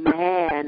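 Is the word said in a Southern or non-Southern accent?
non-Southern. It is said in a non-Southern accent. The voice teachers said it this way. "they were saying man"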